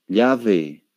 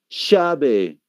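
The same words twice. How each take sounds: First: It is said in a Spanish-from-Spain accent. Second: It is said in an Argentine Spanish accent. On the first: "Ahí van a decir llave" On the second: "El argentino no va a decir llave, ¿qué va a decir?"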